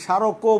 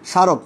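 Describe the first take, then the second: First: স্মারকও as sharoko, o sounded; added final vowel. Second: স্মারক as sharok, ending on k; silent final vowel. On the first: Teacher showing what we don't say, স্মারকও with final o. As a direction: finish স্মারকও on a clear o. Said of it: "বলি না". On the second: Teacher showing the spoken form, স্মারক without final o. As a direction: stop স্মারক on the k. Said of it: "স্বর উচ্চারণ করি না". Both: Shown as a demonstration.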